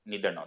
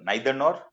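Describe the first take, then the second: First: The first vowel sounds like 'ee'. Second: The first vowel sounds like 'eye'. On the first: "दोनों सही है" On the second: "नाइदर nor नीदर nor दोनों सही है"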